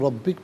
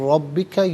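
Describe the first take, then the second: First: The word ends on a consonant. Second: The word ends with a final vowel. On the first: The reader stops at this word. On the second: The reading continues without a stop.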